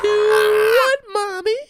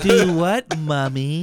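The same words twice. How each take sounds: First: Put-on very high, loud squeaky child voice; shrieked falsetto kid voice; squeaky little girl. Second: Giggling imitation of the girl; laughing repeat. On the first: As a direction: overdo the sweet innocent girl. Exaggerated child voice. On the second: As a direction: echo the kid line while cracking up. Repeating the kid line, laughing.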